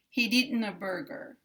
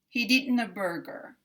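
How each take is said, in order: First: The D is released into the next word. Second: The D is released into the next word.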